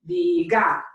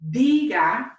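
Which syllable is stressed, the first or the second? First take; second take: second; first. First: The stress is on the second syllable. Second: The stress is on the first syllable. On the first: The speaker calls it wrong. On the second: The speaker calls it right.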